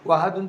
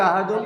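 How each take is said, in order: First: The word begins with a w sound. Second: The word begins with a glottal stop. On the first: "ওয়াহাদুন থেকে" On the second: "হামজা দ্বারা পরিবর্তন করা জায়েজ"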